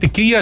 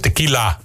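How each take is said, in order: First: The word is said with a Y sound. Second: The word is said with a clear L sound. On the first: The speaker calls it wrong. "Mensen die tequila zeggen, daar kan ik me zo aan ergeren" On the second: The speaker calls it right. "want het is tequila"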